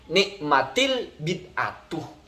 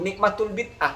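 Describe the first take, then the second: First: The vowel after nikmat is an i sound. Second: The vowel after nikmat is a u sound. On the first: The innovation is the best thing. The speaker calls it right. "maka dihakati kasroh" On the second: The blessing belongs to the innovation. The speaker calls it wrong. "Kok bisa dibaca nikmatul bid'ah?"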